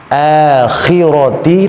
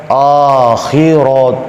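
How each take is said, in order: First: AKHIRATI opening on a long light "æ"; thin, smiling. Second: AKHIRAT opening on a rounded "o"; wrongly thick. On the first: Teacher giving the right reading, thin akhirati. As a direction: draw out akhirati with a thin first A. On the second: Teacher showing what is not allowed, thick akhirat. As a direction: thicken the first vowel of akhirat. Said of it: "tidak boleh dibaca". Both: Shown as a demonstration.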